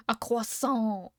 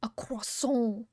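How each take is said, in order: First: Slow voiced "A croissant", French kwah-sahn. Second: Slow breathy whisper of "A croissant", French vowels. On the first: Streamer savoring the French word, slow and voiced. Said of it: "It's fun to say". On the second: Streamer tasting the French word, slow whisper. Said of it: "It sounds like". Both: Shown as a demonstration.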